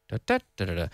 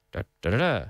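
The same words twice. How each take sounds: First: Spike the second "da" and fall away; negative rhythm. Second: Low "Da, da, da, da", no early peak; affirmative rhythm. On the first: Teacher drills once more, negative rhythm. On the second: Teacher drills once more, affirmative rhythm. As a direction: keep each "da" light until the last. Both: Shown as a demonstration.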